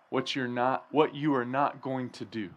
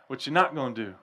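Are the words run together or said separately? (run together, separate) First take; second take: separate; run together. First: Each word is said clearly and separately. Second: The words are mumbled and run together. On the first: "That's the translation" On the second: "we combine words, right? And we just kind of mumble them and jumble them together"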